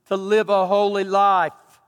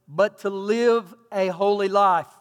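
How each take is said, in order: First: Live a holy life, slow and louder, leaning on live; preached emphasis. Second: Slow reading. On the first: Real, not acted. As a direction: drive the call home. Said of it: "God has called me". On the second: Shown as a demonstration. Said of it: "The New International Version says".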